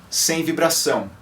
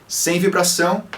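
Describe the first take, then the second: The two takes are said the same way.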